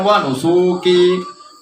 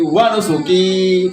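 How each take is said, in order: First: The 'su' vowel is drawn out long. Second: The 'su' vowel is short, 'ki' is long. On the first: The speaker calls it wrong. "Bukan wa nusuki. Mentang-mentang lanya panjang, jadi sunya ikut panjang" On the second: The speaker calls it right. "Panjangnya tuh diki"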